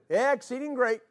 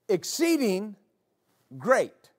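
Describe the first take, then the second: First: It is said casually and offhandedly. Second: It is said with strong emphasis.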